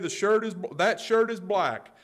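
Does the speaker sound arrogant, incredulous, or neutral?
neutral. It is said as a plain, neutral statement. The speaker is simply stating a fact. "That's a simple statement"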